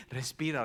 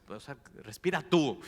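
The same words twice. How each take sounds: First: Said in the usual way. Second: Respira tú with tú hit louder; a joking jab leaning on tú; stress on tú. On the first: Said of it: "estás así". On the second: Retold or imitated. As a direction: throw it back with weight on tú. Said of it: "o sea, que res".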